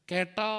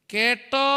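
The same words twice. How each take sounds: First: Said in the usual way. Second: "കേട്ടോ" drawn out, louder, rising higher; insistent call for response. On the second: Real, not acted. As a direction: call "കേട്ടോ" out to the whole hall, pitched up at the end. Repeats louder to get response.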